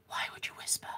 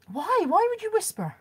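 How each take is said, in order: First: The same question in a soft toneless whisper. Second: Pitched up high in disbelief; incredulous voiced question. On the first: Mocking whispering for viewers, soft whisper. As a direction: breathe it at the camera in a whisper. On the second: To her viewers, baffled by whispering, voiced high. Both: Shown as a demonstration.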